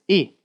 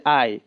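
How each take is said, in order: First: E said as "ee"; Japanese vowel. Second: I said as English "eye"; English letter name. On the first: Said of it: "this is E". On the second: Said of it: "this is not the I". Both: Shown as a demonstration.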